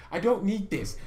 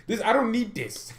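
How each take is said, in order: First: Laughing. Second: Irritated. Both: Real, not acted. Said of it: "I'm so irritated today".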